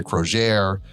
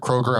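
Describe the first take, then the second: First: "Crozier" as mock-French kro-ZHAIR; fancy French-style "Crozier"; deliberate mispronunciation. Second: Said in the usual way. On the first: Shown as a demonstration. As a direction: slowly stretch Kroger into "Crozier", stress at the end. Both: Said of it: "I'm gonna mispronounce a word".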